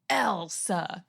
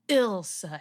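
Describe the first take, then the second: First: The name begins with an 'ell' sound. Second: The name begins with an 'ill' sound. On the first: The speaker calls it wrong. "not Elsa" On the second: The speaker calls it right. "It's Ilsa"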